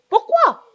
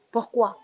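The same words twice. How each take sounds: First: Sudden high shout of pourquoi; exploding question. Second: Said in the usual way. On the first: Acted. Aunt shouting at the interrupting niece, outraged. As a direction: blow up at the niece.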